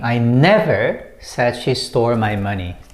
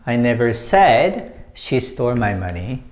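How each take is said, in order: First: The stress falls on the word never. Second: The stress falls on the word said. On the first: It was never said at all. "when you put emphasis on the second word, never" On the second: It was only implied, not put into words. "when you put emphasis on said"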